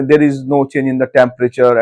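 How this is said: It is said fluently and with confidence. The speaker calls it right.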